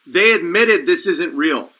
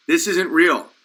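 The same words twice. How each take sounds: First: "they admitted this isn't real" said slowly, each word spelled out; slow enunciation. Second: Said in the usual way. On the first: Shown as a demonstration. Host spelling out "they admitted this isn't real" for listeners, slowly. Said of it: "let's just really enunciate this". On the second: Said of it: "When they look at you and say".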